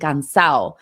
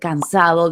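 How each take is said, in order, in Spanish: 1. El sonido d al final se omite. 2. El sonido d al final se pronuncia. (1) "dicen cansado" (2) "En vez de decir cansado"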